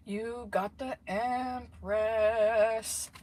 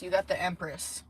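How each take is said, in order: First: Very slow, stretched-out words; drawn-out delight. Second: Said in the usual way. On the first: Real, not acted. Tarot reader announcing a lucky card, very drawn out. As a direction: savour it, drawing EMPRESS right out.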